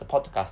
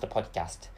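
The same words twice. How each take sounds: First: The word is said with a British accent. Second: The word is said with an American accent. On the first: "In British English, podcast is pronounced podcast" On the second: "in American English, podcast is pronounced podcast"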